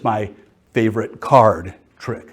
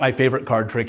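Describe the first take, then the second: First: The main stress falls on the word card. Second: The main stress falls on the word trick. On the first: It is a trick done with the card he likes best. The speaker calls it right. "It's a trick that's done with my favorite card" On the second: It is the trick he likes best. The speaker calls it wrong. "It's not my favorite card trick"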